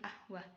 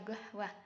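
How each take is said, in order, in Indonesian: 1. Kata itu langsung diawali dengan vokal. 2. Kata itu diawali dengan bunyi g. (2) "Bagi orang Mesir, lafadz qahwah itu dibaca gahwah"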